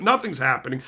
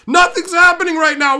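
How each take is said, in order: First: Said in the usual way. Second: High, loud yell of Nothing's; yelling at the people screaming behind him; angry shout. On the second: Retold or imitated. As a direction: shout "Nothing's happening" at them, exasperated. Shouted repeat at screaming group.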